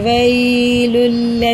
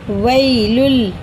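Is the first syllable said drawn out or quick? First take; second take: drawn out; quick. First: The first syllable is slow and drawn out. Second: The first syllable is said quickly. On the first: The speaker calls it wrong. "ऐसे नहीं पढ़ेंगे" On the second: The speaker calls it right. "इसे जल्दी पढ़ेंगे"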